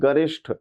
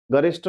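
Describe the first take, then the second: First: गरिष्ठ closed with "sh" and aspirated th; correct ending. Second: गरिष्ठ closed with a plain "st"; wrong ending. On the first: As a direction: end गरिष्ठ on "-ishṭh". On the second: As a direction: end गरिष्ठ on "-ist", unaspirated. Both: Shown as a demonstration. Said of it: "गरिष्ठ नहीं".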